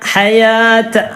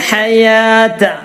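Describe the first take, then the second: No difference in how they are said.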